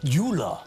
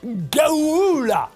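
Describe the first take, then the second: First: It is said with Hungarian sounds. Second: It is said with English sounds.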